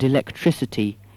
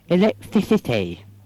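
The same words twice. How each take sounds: First: The s sound is clear, without a lisp. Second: The s sound is lisped like th.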